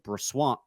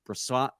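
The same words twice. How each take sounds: First: The name is said with a W sound. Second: The name is said without a W sound. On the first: The speaker calls it wrong. "I thought it was Brossoit" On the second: The speaker calls it right.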